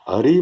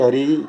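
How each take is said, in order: First: The final vowel is short. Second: The final vowel is long. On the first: The speaker calls it right. "हरि में री रश्व है" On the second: The speaker calls it wrong. "दीर्घ री करके हरि, तो उसका सब अर्थ बदल जाता है"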